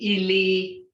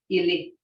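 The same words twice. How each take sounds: First: The word is said longer, not blunt. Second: The word is said short and blunt. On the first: It means dead. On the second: It means foot.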